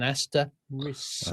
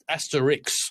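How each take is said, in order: First: The word ends with an 'isk' sound. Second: The word ends with an 'iks' sound. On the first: This is how few people say it. The speaker calls it right. "No, it's an asterisk" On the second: This is how most people say it. The speaker calls it wrong. "They say Ast- Asterix"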